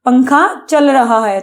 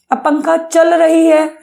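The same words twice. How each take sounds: First: पंखा चल रहा है said slowly with the masculine रहा; slow, clear correct version with रहा; teacher models पंखा चल रहा है correctly; correct form. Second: पंखा चल रही है said slowly as the wrong feminine रही; slow, deliberate wrong version with चल रही; teacher demos the mistake पंखा चल रही है; wrong form on purpose. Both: Shown as a demonstration. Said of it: "ऐसे तो नहीं बोलोगे".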